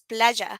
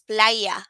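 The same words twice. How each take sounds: First: The y has the Spanish sound. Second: The y sounds like an English y. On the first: The speaker calls it right. "It's playa" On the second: The speaker calls it wrong. "read it as playa, but no, it's not"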